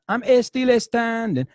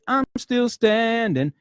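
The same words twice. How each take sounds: First: An extra e sound comes before still. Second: Still begins directly with the s sound. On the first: The speaker calls it wrong. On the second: The speaker calls it right. "It's like"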